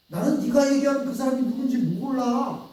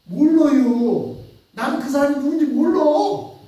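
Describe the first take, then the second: First: Said in the usual way. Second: Loud denial. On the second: Acted. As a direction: drag out the denial to push them off. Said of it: "베드로는 이렇게 얘기하는 거예요".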